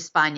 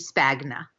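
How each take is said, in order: First: The gn sounds like ny, no hard g. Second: The g is sounded as a hard g. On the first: "it's the Italian way" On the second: "if you said it in the American way"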